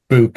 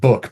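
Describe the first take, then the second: First: It is said in a Stoke accent. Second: It is said in a Maidenhead accent. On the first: "people in Stoke tend to say book" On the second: "I picked up the, the lingo of book from uh, from living down there, thankfully"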